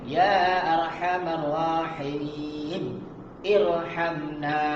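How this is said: It is read slowly, with a stop before the last word. "kalau kita baca slow"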